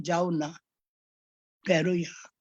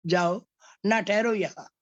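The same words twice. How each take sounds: First: "जाओ ना" together, long pause, then "ठहरो यहाँ"; pause after ना. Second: "जाओ" alone, pause, then "ना ठहरो यहाँ"; pause after जाओ. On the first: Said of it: "फिर दूसरी बार हम कहते हैं". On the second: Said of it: "आपने विश्राम चिन्ह कहाँ लगाया है". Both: Shown as a demonstration.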